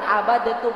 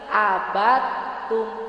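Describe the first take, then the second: First: The d is released separately before the t. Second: The d merges into the following t. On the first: The speaker calls it wrong. "bukan abadetum, bukan gitu" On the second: The speaker calls it right. "tapi abatum"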